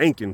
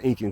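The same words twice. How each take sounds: First: The word begins with an 'An' sound. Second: The word begins with an 'In' sound. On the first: The people are Andean, not Indian. The speaker calls it right. "it was the Inc, the Incan culture" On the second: The people are Indian. The speaker calls it wrong. "not the Incan culture"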